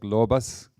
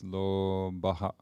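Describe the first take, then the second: First: The word ends with a plain s sound. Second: The word ends with an added ha syllable. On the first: The word runs straight into the next word. "when you pronounce this without stopping, the S, like lobas" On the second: The recitation stops after the word. "But when we're cutting it, it becomes lobaha"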